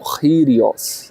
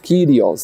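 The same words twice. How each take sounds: First: The first K is a throaty guttural sound. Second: The first K is a plain k sound. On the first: "o K em grego se pronuncia como um gutural" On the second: "como nós dizemos"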